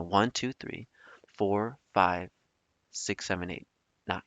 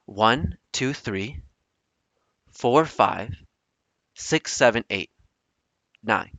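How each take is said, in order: First: Softer, halting count with gaps; quiet recount. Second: Building suspense. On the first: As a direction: replay the count, trailing away softly. Replaying the number count. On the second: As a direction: count with long pauses between groups. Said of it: "I'm building the suspense here". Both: Retold or imitated.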